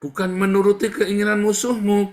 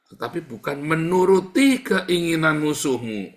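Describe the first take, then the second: First: Much higher, louder, with menuruti thundered out; preaching shout. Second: Menuruti pushed a bit higher and louder; stress on menuruti. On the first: Pastor repeating the warning to the congregation, shouting it. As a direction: thunder out bukan menuruti as a rebuke. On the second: Preacher warning the church against obeying enemies, stressing menuruti. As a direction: lean on the word menuruti. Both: Shown as a demonstration. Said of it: "Beda lagi itu ya".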